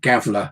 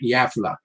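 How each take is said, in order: First: The name is said as read by an English speaker. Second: The name is said with its local pronunciation.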